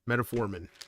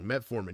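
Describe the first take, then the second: First: It has an extra syllable, starting like 'meta'. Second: It starts with 'met' with no extra syllable. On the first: The speaker calls it wrong. "I always say metaformin like it's a meta" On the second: The speaker calls it right. "Metformin sounds weird to me"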